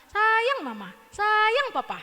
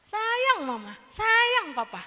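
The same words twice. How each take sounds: First: Lightly voiced singsong cartoon child; Upin Ipin. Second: Put-on light, high childlike chant; a little child reciting affection; kid singsong. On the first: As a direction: chant it like a little kid. (suara anak kartun yang riang) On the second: (anak kecil mengucap sayang dengan nada tinggi) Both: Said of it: "Kayak Upin Ipin ya".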